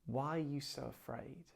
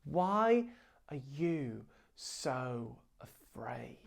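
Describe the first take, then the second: First: Soft question. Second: Jesus calmly answers the panicking disciples, whispered; gentle whisper. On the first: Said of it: "what he's saying is". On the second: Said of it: "Jesus is like". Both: Retold or imitated.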